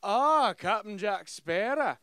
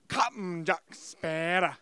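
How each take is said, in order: First: Loud, drawn-out villain greeting; mock a weak sound-alike actor; bad Davy Jones imitation. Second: "Captain Jack Sparrow" loud and slow, heavily punched; Davy Jones emphasis. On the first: Mocking the game's Davy Jones actor, theatrical villain voice. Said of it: "This guy's sitting there, he's like". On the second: Retold or imitated. Showing how the real villain talks, punched "Captain Jack Sparrow". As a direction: hammer and stretch the words of "Captain Jack Sparrow". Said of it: "He'd put an emphasis on, like, every other word".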